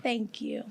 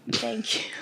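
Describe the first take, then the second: First: Said in the usual way. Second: A breathy whispered thank you. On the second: Real, not acted. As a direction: whisper the thanks to yourself, touched. Thanks after praise, repeated.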